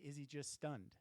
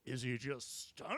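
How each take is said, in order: First: It is said plainly, without exaggeration. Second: It is said with exaggerated, hammy drama.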